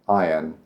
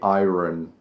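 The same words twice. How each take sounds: First: No R sound is pronounced in the middle. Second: An R sound is pronounced in the middle. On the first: The speaker calls it right. "It's more like iron" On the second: The speaker calls it wrong. "A lot of people say iron"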